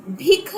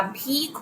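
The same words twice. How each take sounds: First: भिख with a short clipped i. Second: भीख with a long drawn ee. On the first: Teacher showing students the wrong vowel, short i. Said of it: "भीख होता है". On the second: Teacher correcting students, long ee vowel. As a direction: stretch the vowel in भीख, the right way. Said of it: "यहाँ पे भिख नहीं होता". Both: Shown as a demonstration.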